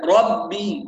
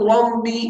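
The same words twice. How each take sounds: First: "ربي" slow, "rab-bii" with a firm double b; clear strong ba. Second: "ربي" said "rambi", m leaking into the b; nasalized ba. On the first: Teacher corrects it, slow ربي with a clear ba. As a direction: press the lips for a clean b in "ربي". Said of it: "باء واضحة". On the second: Teacher shows what not to say, ربي as nasal rambi. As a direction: hum through the nose before the b of "ربي". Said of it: "لا نقول". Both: Shown as a demonstration.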